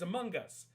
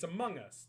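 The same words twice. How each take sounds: First: A hard G is sounded at the end of 'among'. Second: 'Among' ends in a plain ng with no G. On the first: This is how people in the US say it. "they pronounce the G in Among" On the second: This is how maritime Canadians say it. "We don't pronounce the G"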